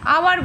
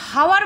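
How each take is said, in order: First: The word begins with a vowel sound. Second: The word begins with an h sound. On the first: The speaker calls it right. "কিন্তু আওয়ার বলি" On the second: The speaker calls it wrong. "আমরা হাওয়ার বলি না"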